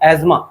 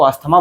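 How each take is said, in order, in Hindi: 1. बीच का हिस्सा 'z' की आवाज़ से बोला जाता है। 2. बीच का हिस्सा 'sth' की आवाज़ से बोला जाता है। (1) "लेकिन एक्चुअली में इसका प्रोनाउंसिएशन क्या है? एज़मा" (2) "हम लोग नॉर्मली कॉमन भाषा में इसको अस्थमा बोल देते हैं"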